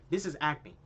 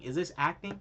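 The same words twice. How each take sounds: First: Said in the usual way. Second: Rising, doubtful question on this; questioning rise. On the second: Shown as a demonstration. Mocking the film to viewers, incredulous rising question. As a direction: ask it in disbelief, this lifted.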